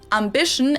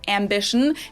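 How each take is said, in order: First: The first vowel is a German A. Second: The first vowel is an English A.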